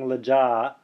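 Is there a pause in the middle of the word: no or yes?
no. The word runs on with no pause inside. The speaker calls it wrong. "I'm not saying lajja"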